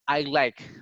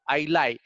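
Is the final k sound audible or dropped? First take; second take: audible; dropped. First: The final k sound is clearly audible. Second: The final k sound is dropped. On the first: The speaker calls it right. "the k will make the difference" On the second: The speaker calls it wrong. "But the word lie, if you really pay attention to that, sounds different"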